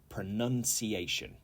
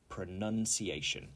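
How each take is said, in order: No difference in how they are said.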